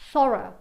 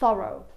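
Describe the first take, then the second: First: The word ends in a weak 'uh' vowel. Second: The word ends in a full rounded 'oh' vowel. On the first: "In British English ... con l'ultimo suono come un suono schwa" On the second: "in American English anche"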